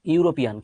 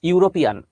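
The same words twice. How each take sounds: First: Said in the usual way. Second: ইউরোপিয়ান said high and loud, stressing ইউ; European with yoo. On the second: Shown as a demonstration. To the class, teacher stresses ইউ in ইউরোপিয়ান. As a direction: call out ইউরোপিয়ান, hitting the ইউ. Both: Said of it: "ইউ এর উ".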